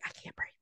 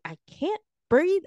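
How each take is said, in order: First: Barely voiced, as if out of air; breathless murmur. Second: Said in the usual way. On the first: Telling the man she can't breathe, faint and breathless. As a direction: imitate having no breath left, very soft. Retold repeat, barely any voice left.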